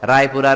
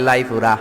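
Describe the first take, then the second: First: The word begins with an r sound. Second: The word begins with an l sound.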